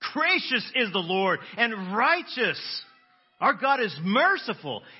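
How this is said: It is said with joyful, rejoicing excitement.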